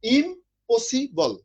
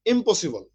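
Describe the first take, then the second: First: impossible said very slowly, split into im-po-si-bol; syllable by syllable. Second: Said in the usual way. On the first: Shown as a demonstration. Teacher splits the word for his students, slow syllable by syllable. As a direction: stretch impossible out slowly, beat by beat. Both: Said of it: "যেটা তিনবারে উচ্চারণ করতে হয়".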